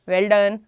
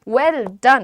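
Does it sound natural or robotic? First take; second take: robotic; natural. First: It is said in a flat, robotic tone. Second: It is said in a natural, lively tone.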